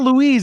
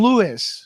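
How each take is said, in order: First: The name is said like Louise, ending in z. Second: The name is said like Louis, without z. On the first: This is how other people wrongly say his name. The speaker calls it wrong. "I'm not Louise" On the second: This is how he says his own name. The speaker calls it right. "I'm Louis"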